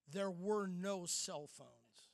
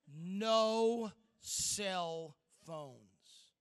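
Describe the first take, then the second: First: Slow, weighty announcement; slow it down and let each word land; dramatic reveal. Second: Drawn-out, louder repeat, NO stretched long; very slow repeat. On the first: Speaker warning teens before the shocking reveal, slow and weighty. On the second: Speaker hammering the shock home to teens, drawn out and louder. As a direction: stretch "No cell phones" out very slowly and louder, hitting No. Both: Shown as a demonstration. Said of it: "take a deep breath, 'cause this is going to shock you".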